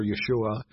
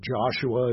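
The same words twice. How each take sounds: First: "Yeshua" said the Hebrew way, with a Y; Hebrew pronunciation. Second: "Joshua" said the modern English way, with a J; modern English pronunciation. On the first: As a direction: start "Yeshua" with a Y sound, then SHOO-ah. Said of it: "would have been pronounced in Hebrew". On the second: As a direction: start "Joshua" with an English J sound. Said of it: "as we would pronounce it today". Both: Shown as a demonstration.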